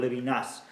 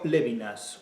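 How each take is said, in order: First: The stress falls on the last syllable. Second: The stress falls on the first syllable. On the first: "a la aguda" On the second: "a la esdrújula"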